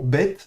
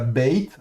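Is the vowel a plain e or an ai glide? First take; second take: plain e; ai glide. First: The vowel is a plain e without glide. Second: The vowel glides toward i, like ai. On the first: The speaker calls it right. "attention, bet" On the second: The speaker calls it wrong. "et pas bait"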